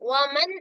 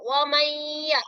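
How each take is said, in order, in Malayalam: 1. n ശബ്ദം വ്യക്തമായും വേറിട്ടും ഉച്ചരിക്കുന്നു. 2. n ശബ്ദം അടുത്ത y ശബ്ദത്തിൽ ലയിക്കുന്നു. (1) "ഈ നൂനിന്റെ ശബ്ദം വമൻ എന്നുള്ള ശബ്ദം എന്ത് ചെയ്യാൻ പാടില്ല, വെളിവാക്കാൻ പാടില്ല" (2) "യാനോട് ചേർത്ത് യാന് ശബ്ദം കൊടുക്കുക"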